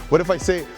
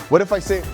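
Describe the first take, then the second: Both takes have the same delivery.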